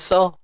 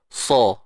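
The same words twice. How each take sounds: First: The s sound is light and thin. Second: The s sound is heavy and thick. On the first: The speaker calls it wrong. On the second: The speaker calls it right.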